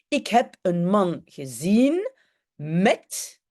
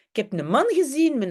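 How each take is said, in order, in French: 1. Chaque lettre se prononce entièrement dans le néerlandais standard. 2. Certaines lettres sont omises dans le néerlandais familier et décontracté. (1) "en algemeen Nederlands, donc le néerlandais officiel" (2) "En tussentaal"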